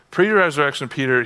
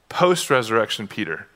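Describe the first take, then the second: First: "Pre-resurrection" leaned on, left hanging; contrast stress. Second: "Post-resurrection" leaned on, lower, falling; contrast stress. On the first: Preacher contrasting Peter before the resurrection, stressing "Pre". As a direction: hit "Pre" in "Pre-resurrection" and keep it open. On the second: Preacher contrasting Peter after the resurrection, stressing "Post". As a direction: land on "Post" in "Post-resurrection" with a low fall. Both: Shown as a demonstration.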